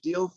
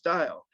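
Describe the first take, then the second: First: The name sounds like the word 'deal'. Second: The name sounds like the word 'dial'. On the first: This is how the speaker has long said it. "I've been saying George Diehl for literally decades" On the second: Others say this is the correct form. "it should be pronounced Dial"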